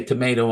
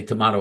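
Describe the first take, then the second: First: Tomato with the American MAY vowel; tomato said the American way, plain and low; toh-MAY-toh. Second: Tomato with the broad MAH vowel; tomato said the British way, as a mocking contrast; toh-MAH-toh. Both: Shown as a demonstration. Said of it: "you say tomato, I say tomato".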